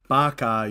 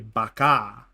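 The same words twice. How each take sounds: First: The final vowel is short, not drawn out. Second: The final vowel is long and drawn out. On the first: The speaker calls it wrong. "you don't say it like Baca" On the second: The speaker calls it right. "Short A, long double A at the end"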